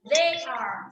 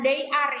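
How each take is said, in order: First: The first sound is made with the tongue between teeth. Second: The first sound is made without the tongue between teeth. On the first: The speaker calls it right. "lidahnya digigit" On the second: The speaker calls it wrong. "bukan they are ya"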